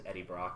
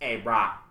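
First: The name is said in a normal accent. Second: The name is said in an odd put-on accent.

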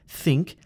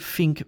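First: The word begins with a th sound. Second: The word begins with an f sound. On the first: The speaker calls it right. "It's thing, think" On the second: The speaker calls it wrong. "it's also not a f sound"

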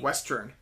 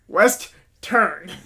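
First: The word is said quickly and casually. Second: Each syllable is said slowly and clearly.

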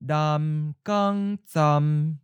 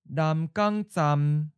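First: It is said slowly and deliberately. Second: It is said at a natural, normal speed. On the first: "and then slowly" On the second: "First natural speed"

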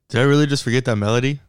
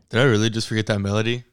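First: It is said in a higher voice. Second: It is said in his normal voice.

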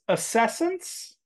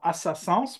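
First: The word is pronounced the English way. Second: The word is pronounced the French way.

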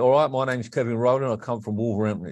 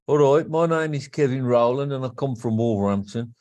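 First: It is said in a London accent. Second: It is said in a Wolverhampton accent.

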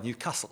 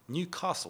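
First: It is said in a local Newcastle accent. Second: It is said in a non-Newcastle English accent. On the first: This is how people from the city say the name. "ニューカッスル出身の人はニューカッスルって言ってます" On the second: This is how an outsider says the name. "私ニューカッスルって"

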